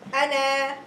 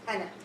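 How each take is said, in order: First: The final vowel is long. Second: The final vowel is short. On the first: The reading stops at this word. "So I will elongate if I am stopping" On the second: The reading continues without a stop. "So here only one harf"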